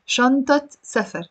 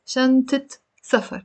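First: شنطة as shantat before سفر; standard Arabic T. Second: شنطة as shantit before سفر; short i before the T of شنطة; Lebanese kasra ending. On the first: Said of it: "You will pronounce the T". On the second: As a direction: shantit safar. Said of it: "the fatha becomes a kasra". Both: Shown as a demonstration.

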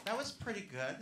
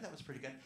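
First: Light, rising praise of the crowd; mild approval. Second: Dropped, much softer repeat; quiet aside. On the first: Comic grading the audience's cheer, light approval. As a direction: rate the cheer kindly. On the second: Comic repeating her verdict under her breath. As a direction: mutter it to yourself. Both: Real, not acted.

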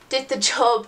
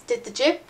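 First: Said in the usual way. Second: Jokingly says "jib" with a short i in place of "job"; "jib" rhymes with "rib" in place of "job"; playful slip. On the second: Shown as a demonstration. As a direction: repeat "did the jib" as a deliberate funny slip.

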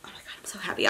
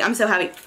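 First: Whispered, much softer, real giddy joy. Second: Said in the usual way. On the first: Real, not acted. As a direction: breathe the words out in a secret thrill. Whispered joy, then repeated plainly.

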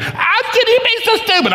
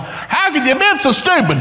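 First: Very high squealed mock yell; hammed-up screechy scolding; helpless angry outburst. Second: Acted-out angry parent; retold yelling. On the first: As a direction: let the rage burst out mid-prayer, pitched extremely high. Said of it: "I'm trying to pray in tongues". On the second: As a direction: scold in comic, high-pitched exasperation. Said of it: "I'm yelling".

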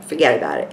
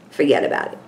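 First: Put-on lower, more New York accent on "Forget about it"; repeated New York catchphrase, a bit deeper. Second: New York "Forget about it" said like a Brooklyn local; New York accent. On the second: Pretend. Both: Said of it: "my New York accent".

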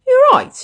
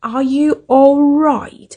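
First: "You're right" high and clipped; misheard phrase. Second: "Are you all right" linked together; correct phrase. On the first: Retold or imitated. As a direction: squeak it out as she heard it. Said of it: "เมื่อกี้หมู่พูดอีหยัง". (You're right แบบที่ได้ยินผิด) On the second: Shown as a demonstration. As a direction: link it smoothly. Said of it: "โอเคไหม". (Are you all right ออกเสียงเชื่อมคำ)

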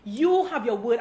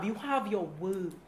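First: "You" lifted, line ending on a rise; stress on you. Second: Softer, lower and slowed right down; quiet and slow. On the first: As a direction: point at them with "You". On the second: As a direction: drop the voice and weigh each word. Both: Shown as a demonstration.

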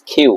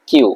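First: কিউ said plainly as the right way; the right কিউ, settled; calm correct কিউ. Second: কিউ said high as the wrong way; mock the wrong কিউ; raised wrong কিউ. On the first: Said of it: "it's কিউ". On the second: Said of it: "not কিউ". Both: Shown as a demonstration.

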